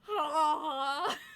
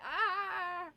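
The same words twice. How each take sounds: First: The scream is in a lowered, deeper voice. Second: The scream is in a normal, higher voice. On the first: "they lower the voice" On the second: "So you don't just scream like"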